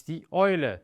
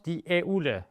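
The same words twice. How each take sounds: First: Die Eule with "eu" said "oi", "oy-leh"; right pronunciation. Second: Die Eule with "eu" said "ay-oo"; wrong pronunciation. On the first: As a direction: Eule rhyming with "boy". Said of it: "It's die Eule". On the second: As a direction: Eule spelt out as "eh-oo-leh". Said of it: "It is not die Eule". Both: Shown as a demonstration.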